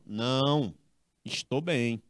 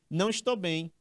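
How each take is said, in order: First: There is a clear pause after não. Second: It is read quickly with no pause after não. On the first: The speaker refuses and says they are fine. The speaker calls it right. "Tem que ter a pausa, ó" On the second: The speaker is not feeling well. The speaker calls it wrong. "Se você ler isso aqui muito rápido, você não vai ver essa vírgula"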